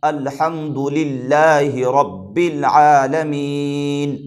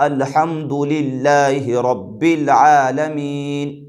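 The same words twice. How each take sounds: No difference in how they are said.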